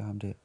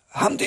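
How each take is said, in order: First: Said in the usual way. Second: A loud, breathy mock call of "Ham der"; "Ham der" shouted out as if from a balcony; imitating a shout. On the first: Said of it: "narrator's own plain mention". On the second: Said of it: "sådan lidt råbende hele tiden". (efterlignet råbende "Ham der", luftigt og højt)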